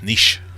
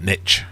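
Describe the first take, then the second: First: The word is said in the non-American way. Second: The word is said in the American way. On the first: The speaker calls it right. "It's niche" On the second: The speaker calls it wrong. "not niche. All Americans, stop saying niche"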